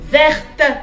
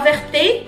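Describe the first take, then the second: First: The word ends on the T sound. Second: A vowel is sounded after the final T. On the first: The speaker calls it right. "Ça commence à dire verte" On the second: The speaker calls it wrong. "Non pas verté"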